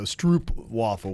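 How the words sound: It is said with an American pronunciation. This is how people in America say it. "would be how we say it in the U S"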